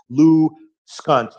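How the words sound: A clear pause splits the name after Lou. The speaker calls it right. "Try to put like a big uh, pause between it. Like I pronounce it Lou Skunt"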